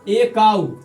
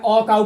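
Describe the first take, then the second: First: The article sounds like 'ay'. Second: The article sounds like 'uh'. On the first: "कोई बोलता है ए" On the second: "कुछ बोलता है अ काउ"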